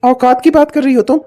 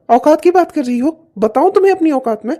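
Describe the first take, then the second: First: Louder, challenging, stress on की; angry. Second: Louder, rising threat; angry. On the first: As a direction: fling her word back at her. Husband answers wife's taunt. (पत्नी पर भड़ककर सवाल) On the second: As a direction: dare her to go on. Husband threatens wife. (पत्नी को गुस्से में धमकी) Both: Acted.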